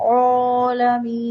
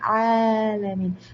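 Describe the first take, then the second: First: The first vowel is said with rounded lips. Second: The first vowel is said with an open mouth. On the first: The speaker calls it wrong. "ചുണ്ട് കൂർപ്പിച്ച്" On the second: The speaker calls it right. "വായ തുറന്നു വെച്ച അവസ്ഥ"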